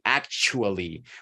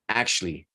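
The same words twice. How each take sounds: First: Every syllable is said fully and separately. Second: The word is reduced and run together. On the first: "you would like to say actually, which is also okay" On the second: "it sounds a completely different way"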